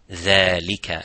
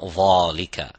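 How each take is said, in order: First: The first sound is light, with an empty mouth. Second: The first sound is heavy, with a full mouth. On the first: The speaker calls it right. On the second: The speaker calls it wrong. "not dhalika"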